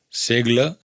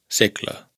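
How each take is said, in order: First: The consonant before the L is single and voiced. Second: The consonant before the L is doubled, sounding voiceless. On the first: The speaker calls it wrong. "No es" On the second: The speaker calls it right.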